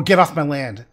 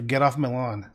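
First: "land" with a flat a and a clear final d, said louder. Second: "lawn" said with an open aw vowel, no final d; the word "lawn" clearly ending in n. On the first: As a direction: hit "land" with a sharp a and end on d. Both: Shown as a demonstration. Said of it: "listen carefully for".

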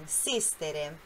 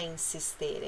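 First: "insistere" with the stress on SIS. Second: "insistere" stressed wrongly on the TE; misplaced stress. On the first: Teacher correcting the mistake, "insistere" stressed on SIS. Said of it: "a sílaba tônica no sis". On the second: Teacher showing the mistake to avoid, "insistere" stressed on TE. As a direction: say "insistere" softly as in-sis-TE-re. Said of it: "não é insistere". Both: Shown as a demonstration.

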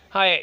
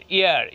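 First: হায় said with a clear h sound, the mistaken way; the wrong way, with an h; wrong pronunciation. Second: ইয়ার said with a silent h, as "iar"; the right way, no h; correct pronunciation. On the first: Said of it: "হায়ের বলবেন না". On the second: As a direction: drop the h and say ইয়ার. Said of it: "হায়ের বলবেন না, ইয়ার". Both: Shown as a demonstration.

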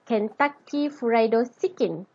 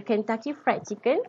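First: "Kentucky Fried Chicken" with "Fried" opened up into "furaido"; Japanese English pronunciation. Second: Said in the usual way. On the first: Shown as a demonstration. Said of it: "the Japanese English would pronounce". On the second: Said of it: "whenever the standard English pronounce".

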